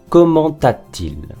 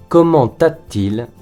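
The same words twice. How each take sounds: Both takes have the same delivery.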